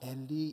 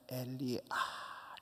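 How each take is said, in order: First: The word ends cleanly after the final syllable. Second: The word trails into an extra pained 'ah'. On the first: "엘리 이렇게 끝나는 게 아니고" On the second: "엘리 아 이래"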